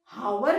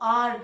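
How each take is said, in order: First: The word begins with a clear h sound. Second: The word begins with a vowel, no h. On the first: The speaker calls it wrong. "हम इसको हावर नहीं बोलते हैं" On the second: The speaker calls it right. "हम इसको आर बोलते हैं"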